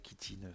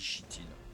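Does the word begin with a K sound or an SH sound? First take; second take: K sound; SH sound. First: The word begins with a hard K sound. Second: The word begins with a soft SH sound. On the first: "ça dépend des, des gens" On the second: "Moi je dis chitine. C H, ça fait che pour moi"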